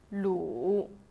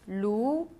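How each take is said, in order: First: The pitch dips low, then comes back up. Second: The pitch rises from middle to high.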